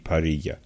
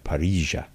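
First: It is said without an Argentine accent. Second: It is said with an Argentine accent.

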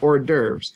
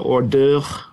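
First: It has an American pronunciation with a silent s. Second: It has a French pronunciation with a throaty r. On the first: "But we say hors d'oeuvres" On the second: "the French might say it closer to hors d'oeuvre"

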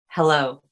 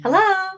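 First: It is said low and relaxed. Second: It is said high and tense.

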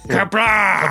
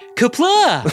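First: It is said in a deep, gruff Martok voice. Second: It is said in a high, whiny voice.

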